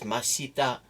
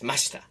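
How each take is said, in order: First: The vowel after 'sh' is fully voiced. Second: The vowel after 'sh' is silent. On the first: The speaker calls it wrong. "Nobody says mashita unless they're like trying to be cute" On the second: The speaker calls it right. "it's mashita"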